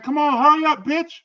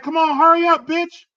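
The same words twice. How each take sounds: First: Put-on kid's yell. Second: Put-on high, loud kid yelling at a friend; a little kid hollering across the street; kid's yell. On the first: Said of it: "They was like". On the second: Kid cussing out a friend in the street, high and loud. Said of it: "the little kid was like".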